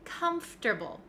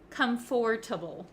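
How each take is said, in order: First: It is said without any 'or' sound. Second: It is said with a full 'or' sound. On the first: The speaker calls it right. "We say comfortable" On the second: The speaker calls it wrong. "we don't say the O R sound, comfortable. We don't say that"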